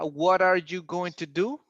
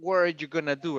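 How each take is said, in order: First: Every word is fully pronounced, including going to. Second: Going to shrinks to gonna; are is kept.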